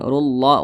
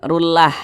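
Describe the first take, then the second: First: The l sound is heavy and thick. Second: The l sound is light and thin. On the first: The speaker calls it right. "tapi ditebalkan rullah" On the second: The speaker calls it wrong. "jangan rullah"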